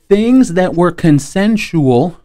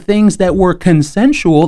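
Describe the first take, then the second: First: The phrase is spoken slowly and deliberately. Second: The phrase is spoken at a normal pace.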